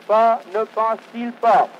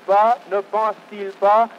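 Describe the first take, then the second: No difference in how they are said.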